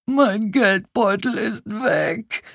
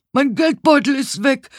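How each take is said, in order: First: High, slow lament; desperate wailing. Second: High, loud alarmed shout; frantic high-pitched outcry; loud calling out. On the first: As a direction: whine it out in despair. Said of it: "jammerte er verzweifelt". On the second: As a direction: shout the theft to the whole neighbourhood. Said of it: "hörte ich jemanden laut rufen". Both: A narrator's reading.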